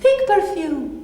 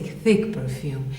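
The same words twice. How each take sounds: First: The voice is plain and neutral. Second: The voice is thick and heavy. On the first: The speaker calls it wrong. "I don't say thick perfume" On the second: The speaker calls it right. "My voice is as thick as the perfume"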